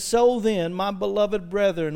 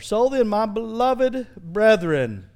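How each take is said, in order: First: It is read at a quick pace. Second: It is read at a slower pace.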